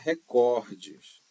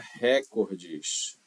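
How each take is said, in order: First: The stress is on the second syllable. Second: The stress is on the first syllable. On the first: The speaker calls it right. "Diga recordes. ... ela é uma palavra paroxítona" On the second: The speaker calls it wrong. "Não diga recordes, como você está acostumado"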